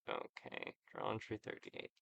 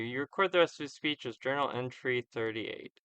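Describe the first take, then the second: First: "journal entry thirty-eight" whispered under the breath; muttered aside. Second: Said in the usual way. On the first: Real, not acted. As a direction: whisper it to yourself while noting it down.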